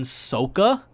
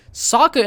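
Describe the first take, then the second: First: Sokka said SOH-kuh, long o; Sokka with the first vowel as in so; mock mispronunciation. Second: Sokka said SAH-kuh, short open o; Sokka with the first vowel as in father; plain. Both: Shown as a demonstration. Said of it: "or as he's called for some reason".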